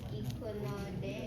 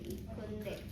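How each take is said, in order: First: The syllable 'no' is pronounced in full. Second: The syllable 'no' is shortened to 'n'.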